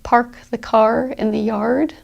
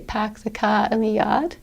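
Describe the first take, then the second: First: The R sounds after vowels are pronounced. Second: The R sounds after vowels are dropped. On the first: "because remember Americans use their R's" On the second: "in a Boston accent"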